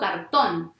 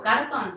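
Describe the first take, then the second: First: The stress is on the last syllable. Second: The stress is on the first syllable. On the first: The speaker calls it right. "o sea que la fuerza está en la última" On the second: The speaker calls it wrong. "pongo la intensidad en la penúltima"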